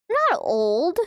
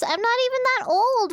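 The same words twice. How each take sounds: First: Hiccup burp mid-sentence; words broken by a burp. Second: Said in the usual way. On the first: Real, not acted. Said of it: "That was like a hiccup burp at the same time".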